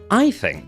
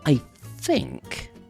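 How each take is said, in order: First: It is said in a confident, assured tone. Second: It is said in a hesitant, uncertain tone. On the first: The speaker is fairly certain of the opinion. "that sounds more confident" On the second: The speaker is not sure of the opinion. "you might say it like this"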